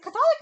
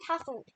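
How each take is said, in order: First: Catholic as kuh-THOL-ick, stress on the second syllable; mispronunciation. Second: Catholic as CATH-lick, stress on the first syllable. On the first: Host asking which is correct, Catholic as kuh-THOL-ick. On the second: Host asking which is correct, Catholic as CATH-lick. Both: Shown as a demonstration. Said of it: "Is it Catholic or Catholic?".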